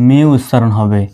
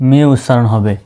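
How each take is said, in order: No difference in how they are said.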